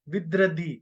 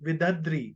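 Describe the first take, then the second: First: The word is said as vidradhi. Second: The word is said as vidadri. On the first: The speaker calls it right. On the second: The speaker calls it wrong.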